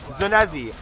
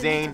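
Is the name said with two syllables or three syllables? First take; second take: three syllables; two syllables. First: The name is said in three syllables, every letter sounded. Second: The name is said in two syllables, Zane-zee. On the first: The speaker calls it wrong. "You're literally pronouncing every fucking letter in the goddamn name" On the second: The speaker calls it right. "Easy as pie, right?"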